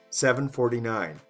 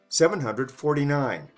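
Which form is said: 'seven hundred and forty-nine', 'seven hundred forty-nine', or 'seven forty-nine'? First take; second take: seven forty-nine; hundred only. First: The number is said without 'hundred' or 'and'. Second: The number is said with 'hundred' but without 'and'. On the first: "Even shorter"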